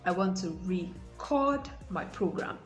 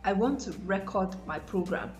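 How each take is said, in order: First: Record is stressed on its second syllable. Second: Record is stressed on its first syllable. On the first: The speaker calls it right. "the stress should be on the second syllable for the verb" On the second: The speaker calls it wrong. "That is absolutely wrong"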